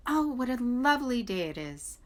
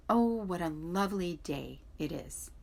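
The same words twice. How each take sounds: First: Chickadee voice. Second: A hint of a little bird; lightly voiced songbird; chickadee, lightly voiced. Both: A narrator's reading. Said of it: "when the chickadees sang".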